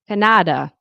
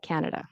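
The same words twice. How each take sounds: First: The stress falls on a different syllable. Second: The stress falls on the expected syllable. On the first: The speaker calls it wrong. "if the stress is in the in the incorrect part of the word" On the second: The speaker calls it right. "instead of Canada"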